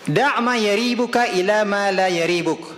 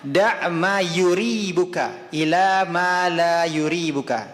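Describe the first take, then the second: First: The verb is said with an 'a' after 'y'. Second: The verb is said with a 'u' after 'y'. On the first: "bisa dibaca yaribuka" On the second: "Boleh juga kita membacanya"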